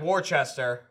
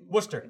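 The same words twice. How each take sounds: First: The name is said with every spelled syllable sounded. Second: The name is said in its short, clipped form. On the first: This is how the name looks from its spelling. "It looks like Worcester" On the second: This is how the town name is actually said. "Worcester, yeah"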